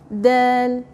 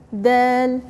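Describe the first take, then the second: First: The word is said soft and light. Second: The word is said soft and light.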